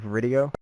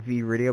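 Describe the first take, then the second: First: The V blends into one word, like video. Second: The V is said as a separate letter. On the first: The speaker calls it right. "but it's actually Vridio" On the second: The speaker calls it wrong. "it's not V-Radio"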